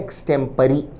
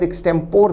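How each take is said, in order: First: The word ends with a 'ree' sound. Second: The word ends with a 'por' sound. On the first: The speaker calls it right. "सही British उच्चारण है" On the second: The speaker calls it wrong. "दिखने में शब्द एक्सटेम्पोर दिखता है"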